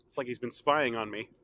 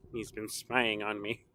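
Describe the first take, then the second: First: Said in the usual way. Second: Low, slow and softer spooky repeat; spooky mock voice. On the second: Vlogger repeating his joke in a low, slow spooky voice. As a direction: creep it out like a horror host.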